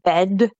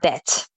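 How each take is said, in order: First: The final sound is a voiced D. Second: The final sound is a voiceless T. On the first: The speaker calls it wrong. "So it's not bed" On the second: The speaker calls it right. "make sure you pronounce that D as a T there"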